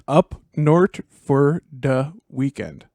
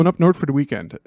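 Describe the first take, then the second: First: Minnesota accent, drawn out slowly; slow deliberate Minnesota accent demo. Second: Quick Minnesota accent, words run together; fast Minnesota accent. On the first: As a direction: spell out the Minnesota phrase slowly. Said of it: "If you're trying to do a basic Minnesota accent". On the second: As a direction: rattle off "north for the weekend" fast in a Minnesota accent. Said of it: "just say it fast". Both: Shown as a demonstration.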